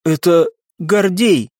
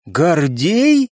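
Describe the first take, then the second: First: Slow, grieving statement; halting, a touch tearful. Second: Higher, astonished question; amazed. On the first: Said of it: "на её глазах показались слёзы". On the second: Оксана echoing the unexpected name, amazed. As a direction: ask back in disbelief. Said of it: "изумлённо переспросила Оксана". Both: A narrator's reading.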